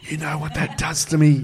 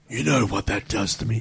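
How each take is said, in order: First: It is said in a normal reading voice. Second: It is said in a gruff Batman voice.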